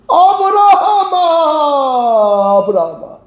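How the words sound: It is called out joyfully and delighted.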